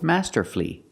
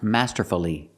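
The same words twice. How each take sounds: First: The word has three syllables, ending in 'flee'. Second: The word has four syllables, ending in 'fully'. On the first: The speaker calls it right. "We pronounce it with three syllables. ... The last syllable is flee" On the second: The speaker calls it wrong. "The word is not pronounced masterfully. ... It's not four syllables"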